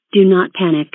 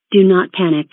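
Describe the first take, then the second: No difference in how they are said.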